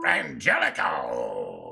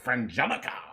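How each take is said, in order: First: It is said in a hyped strip club DJ voice. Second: It is said in a plain, normal voice.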